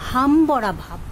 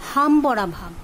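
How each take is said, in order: Both takes have the same delivery.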